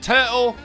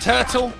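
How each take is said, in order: First: The middle T is a glottal stop. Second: The middle T is a clear, emphasized T. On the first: "you ain't got a glottal stop it. Turtle, maybe if you're like mid-sentence" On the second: "But otherwise, turtle. Emphasize the T"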